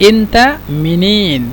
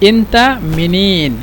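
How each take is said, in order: No difference in how they are said.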